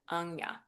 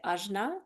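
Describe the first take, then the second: First: The middle sound is nasal, like 'nya'. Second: The middle sound is plain, without nasal quality. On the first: "more of like a nasally sound" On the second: "one way is ajna"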